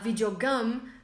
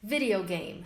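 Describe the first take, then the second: First: The second part sounds like the word gum. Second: The second part sounds like the word game. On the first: The speaker calls it wrong. "tá errado porque gum significa outra coisa" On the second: The speaker calls it right. "Se você for falar em inglês"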